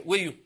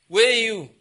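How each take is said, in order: First: Said in the usual way. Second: Louder, higher call "Where you?". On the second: Acted. God summoning the disobedient one, loud call.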